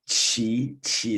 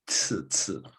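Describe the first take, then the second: First: The consonant is a ch-like sound, tongue lower. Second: The consonant is a ts-like sound, tongue forward. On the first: The speaker calls it right. "起起 is further down" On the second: The speaker calls it wrong. "your tongue is like 次次. It's on the brink here"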